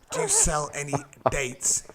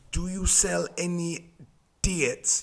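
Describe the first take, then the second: First: Said in the usual way. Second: Slowed-down Sunderland accent, imitating a mate; strong Sunderland accent. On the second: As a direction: repeat it slowly in broad Sunderland. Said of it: "he's got a strong accent".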